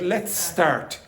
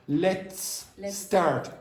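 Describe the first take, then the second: First: The two s sounds merge into one long s. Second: The two s sounds are said separately. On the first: The speaker calls it right. "that disappears and that becomes longer" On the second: The speaker calls it wrong. "How often do I start to speak like let's start? Nobody does"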